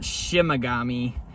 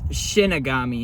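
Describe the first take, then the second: First: The second syllable is pronounced 'ma'. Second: The second syllable is pronounced 'ni'. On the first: The speaker calls it wrong. "not Shimagami" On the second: The speaker calls it right. "It's Shinigami"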